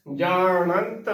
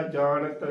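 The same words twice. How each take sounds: First: ਜਾਣੰਤ slow, with a full nasal nant; full nasal syllable. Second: ਜਾਣਤ as jaa-nat, short last syllable without nasal; nasal dropped. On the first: Teacher insists on correct ਜਾਣੰਤ, full nasal syllable. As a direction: fill out the nasal in ਜਾਣੰਤ before the t. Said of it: "ਭਰ ਕੇ ਬੋਲਣਾ ਹੈ". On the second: Teacher warns against ਜਾਣਤ, nasal left out. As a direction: say ਜਾਣਤ quickly with a bare n before the vowel. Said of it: "ਜਾਣਤ ਬਿਲਕੁਲ ਨਹੀਂ ਬੋਲਣਾ". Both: Shown as a demonstration.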